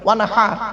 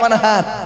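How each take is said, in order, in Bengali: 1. 'h' ধ্বনিটি গলার গভীর থেকে শ্বাসের সঙ্গে বের হয়। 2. 'h' ধ্বনিটি একটি সাধারণ, হালকা শ্বাসের ধ্বনি। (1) "এই গলার ভেতর থেকে হেটা উচ্চারণ করবেন" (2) "আর আমরা কি বলি?"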